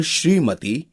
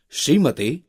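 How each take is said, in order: First: श्रीमती with long ee twice; correct vowel length. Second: श्रीमती said 'shrimate', short vowels; wrong vowel length. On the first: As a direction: draw out 'shree' and 'tee' in श्रीमती. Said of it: "शुद्ध शब्द है". (श्रीमती में दोनों लंबी ई) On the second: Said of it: "अशुद्ध शब्द है". (श्रीमती को 'श्रिमति' बोलना) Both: Shown as a demonstration.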